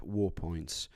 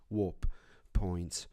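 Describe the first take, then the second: First: "war points" said without the p, like war; "war points" with a clear r and no p sound; mispronounced. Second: "warp" with a clear p before "points"; "warp points" said carefully with the p; corrected pronunciation. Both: Real, not acted. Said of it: "Sorry, not war points".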